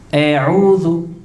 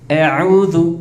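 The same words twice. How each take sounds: First: The first vowel is a full open a. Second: The first vowel leans toward an e sound. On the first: The speaker calls it right. "Maka sempurnakan harokat fathah" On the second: The speaker calls it wrong. "Bagaimana imalah contohnya?"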